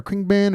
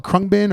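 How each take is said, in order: First: Khruangbin said as KRING-bin. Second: Khruangbin said as KRUNG-bin. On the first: Offering another guess at the band's name, Khruangbin as KRING-bin. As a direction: say Khruangbin with "ih" in the first syllable. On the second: Offering one guess at the band's name, Khruangbin as KRUNG-bin. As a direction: say Khruangbin with "uh" in the first syllable. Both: Shown as a demonstration. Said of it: "don't even know how to pronounce".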